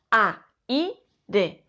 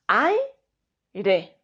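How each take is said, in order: First: "a, i, re" as three separate syllables; split syllables. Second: "aire" with ai glided into one syllable; joined diphthong. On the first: Teacher showing students the wrong split of aire. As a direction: break aire into a... i... re. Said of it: "No decimos". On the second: Teacher showing students the right way to say aire. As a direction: say aire in one smooth beat. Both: Shown as a demonstration.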